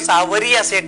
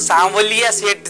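First: The name is said with an r sound. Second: The name is said with an l sound. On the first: This is the Rajasthani form of the name. "Rajasthani में अगर बोलने चाहेंगे तो सांवरिया सेठ बोला जाएगा" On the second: This is the Hindi form of the name. "Hindi में जो लिखेंगे तो सांवलिया सेठ जी आएगा"

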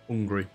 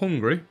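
First: The initial H sound is dropped. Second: The initial H sound is clearly pronounced. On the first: "No H" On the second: "Not hungry"

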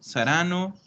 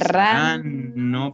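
First: The double n is said short, as single. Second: The double n is held long. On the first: The speaker calls it wrong. "Non mi stai pronunciando nessuna doppia. Hai detto verranno, saranno" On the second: The speaker calls it right. "No, loro verranno dopo che saranno passati"

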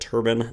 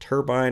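First: It sounds like the headwear word turban. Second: The last syllable is said like 'bine'. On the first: The speaker calls it wrong. "in the past, I believe I've said turbine" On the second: The speaker calls it right. "not turbine. It's turbine"

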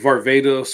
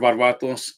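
First: The name is said the English way. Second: The name is said the Greek way.

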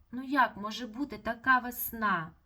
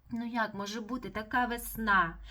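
Both takes have the same delivery.

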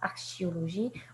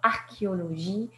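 First: The ch is sounded as sh. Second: The ch is sounded as k. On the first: The speaker calls it wrong. "et non pas archéologie" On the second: The speaker calls it right. "archéologie et non pas"

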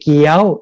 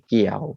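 First: The pitch is higher still. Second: The pitch is low. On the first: "ไม่ตรีเกี้ยวสูงอีก" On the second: "ไม่เอกเกี่ยวเสียงต่ำลง"

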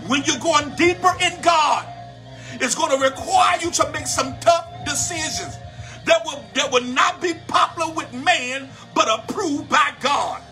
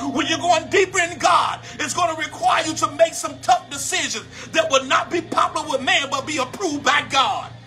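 First: It is said at a slower pace. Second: It is said at a faster pace.

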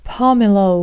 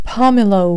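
No difference in how they are said.

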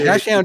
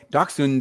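First: The word has an anglicized American pronunciation. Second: The word has a German-style pronunciation. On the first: "is the American way" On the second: "is the German way"

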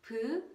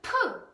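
First: The consonant is plain with little air. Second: The consonant is aspirated with a strong puff. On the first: "Pu moves a little" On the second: "pu moves a lot"

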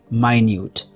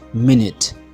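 First: It is said with the adjective pronunciation. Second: It is said with the noun pronunciation. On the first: It means tiny. "Minute as an adjective is pronounced minute" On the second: It means a unit of time. "Minute as a noun is pronounced minute"

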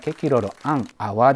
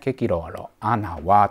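First: The n and a are said separately. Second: The n and a run together smoothly.

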